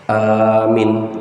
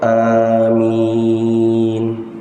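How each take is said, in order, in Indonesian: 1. Vokal pertama panjang, yang kedua pendek. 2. Vokal kedua diucapkan sangat panjang. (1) "A-nya panjang, Mi-nya pendek" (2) "amin panjang"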